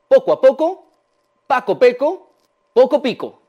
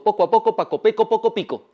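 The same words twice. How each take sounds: First: It is said slowly, phrase by phrase. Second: It is said quickly, run together. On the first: "Vamos paso a paso con este trabalenguas" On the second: "Lo voy a decir ahora más rápido"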